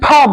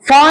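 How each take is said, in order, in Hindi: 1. पहली आवाज़ दोनों होठों से निकली हल्की साँस वाली फूंक है। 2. पहली आवाज़ में निचला होंठ और दाँत इस्तेमाल होते हैं। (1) "जैसे पा बोला पा, वैसे फा बोलना है" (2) "फा नहीं बोलना है"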